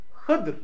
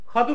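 First: The first vowel is a close i sound. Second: The first vowel is an open a sound. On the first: "Ha'nın harekesi ney? Kesra. Dat'ın harekesi ney? Sükun" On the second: "Hası fetha, dalı ney? Kesra"

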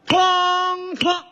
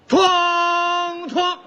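First: The gong sound comes exactly in time. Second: The gong sound comes slowly, lagging the count. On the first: The speaker calls it right. "好，就照这样。" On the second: The speaker calls it wrong. "你太慢了。"

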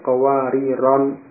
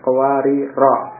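First: The word ends with an added n sound. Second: The word ends in a plain vowel. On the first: The form is adjusted to match the neighbouring words. "dibaca dengan tanwin" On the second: This is the word's original form without nunation. "Asalnya qawarira ini mamnu' minas sharaf"

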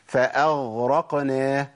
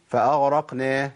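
First: The gh sound is firm and fully formed. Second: The gh sound is weak and nearly dropped. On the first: The speaker calls it right. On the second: The speaker calls it wrong.

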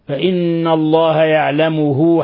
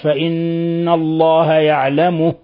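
First: The final h carries a lengthened u vowel. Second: The final h is voiceless with no vowel. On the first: The recitation continues into the next words. "حال الوصل" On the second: The recitation stops after this word. "حالة الوقف تسكن الهاء"

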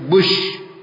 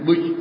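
First: The s-like sound is clear and distinct. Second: The s-like sound is weak and barely heard. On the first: The speaker calls it right. "tapi bush" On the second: The speaker calls it wrong. "Sinnya kurang nampak. Jangan bil bush"

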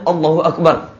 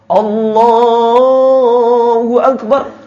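First: The word Allah is said quickly. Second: The word Allah is drawn out long. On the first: The opening takbir is already finished. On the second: The opening takbir is still in progress.

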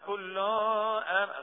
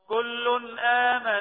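First: The n sound is not pronounced clearly. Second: The n sound is pronounced clearly. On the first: The speaker calls it wrong. "ما نقولش كل آمن أو كل آمن، غلط" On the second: The speaker calls it right. "لازم نظهر التنوين لأنه بعد الهمزة"

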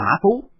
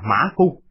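First: The last syllable has a rising tone. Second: The last syllable has a level tone.

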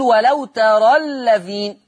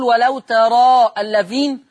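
First: The long vowel after 'tara' is dropped. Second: The long vowel after 'tara' is kept. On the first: The speaker calls it right. "حذفت الالف" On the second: The speaker calls it wrong. "هو انا بقف اما بوصلها بقول ولو ترى الذين"

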